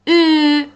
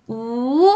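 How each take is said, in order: First: «او» as a louder, higher fronted ü; Turkish Ü vowel. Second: «او» as a long back u; Turkish U vowel. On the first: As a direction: say ee through rounded lips for «او». («او» کشیده با صدای ü ترکی) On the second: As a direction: hold a rounded back oo on «او». («او» کشیده با صدای u) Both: Shown as a demonstration. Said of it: "خیلی باید تلفظ بشه".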